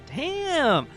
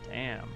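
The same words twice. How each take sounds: First: It sounds pleased and impressed. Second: It sounds disappointed and sad. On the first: Something good happened. "positive damn" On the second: Something bad happened. "As opposed to"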